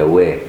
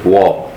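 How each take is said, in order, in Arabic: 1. صوت w خفيف ورقيق. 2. صوت w ثقيل وغليظ. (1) "لأن الواو رقيق" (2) "كثير من المصريين يفخم الواو يقول لك وا"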